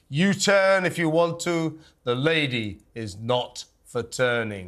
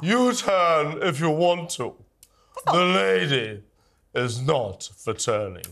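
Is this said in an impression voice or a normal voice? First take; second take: normal; impression. First: It is read in the speaker's own normal voice. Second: It is said in a put-on impression voice. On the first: The speaker calls it wrong. "I'd have liked it more if you actually tried to do the voice as well" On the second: The speaker calls it right. "That's not too shabby, actually"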